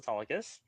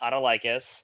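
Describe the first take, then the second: First: The name is said with the adopted pronunciation. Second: The name is said with the discarded pronunciation. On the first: The speaker calls it right. "I was Autolycus" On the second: The speaker calls it wrong. "not Autolycus"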